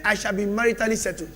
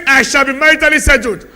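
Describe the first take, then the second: First: Said in the usual way. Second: Loud, higher, ringing confession; confident declaration. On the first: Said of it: "He didn't say it as if he believe it". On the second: Shown as a demonstration. Pastor leads a believing confession, loud and sure. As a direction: proclaim it as if you believe it.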